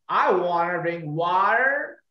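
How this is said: It is said in an American accent.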